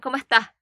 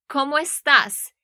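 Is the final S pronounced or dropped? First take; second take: dropped; pronounced. First: The final S is dropped. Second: The final S is clearly pronounced.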